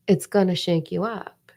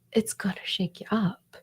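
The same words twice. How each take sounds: First: Said in the usual way. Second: "shake you up" whispered, hushed; ominous whisper. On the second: Shown as a demonstration. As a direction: whisper "it's gonna shake you up" as a warning.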